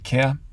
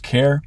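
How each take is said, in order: First: No r sound is pronounced after the vowel. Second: An r sound is pronounced after the vowel. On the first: "in English English, it's more like care" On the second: "in Canadian English, you probably pronounce that as care"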